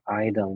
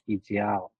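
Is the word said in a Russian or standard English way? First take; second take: standard English; Russian. First: The word is said in standard English. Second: The word is said with a Russian accent. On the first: The speaker calls it right. "It should be pronounced like idol" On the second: The speaker calls it wrong. "ideal can be Russian version"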